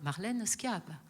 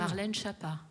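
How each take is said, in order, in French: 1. Le nom de famille commence par un son sk. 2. Le nom de famille commence par un son sh. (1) "Le S C H I se prononce bien ski en Corse" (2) "là-bas, ils disent Chapa"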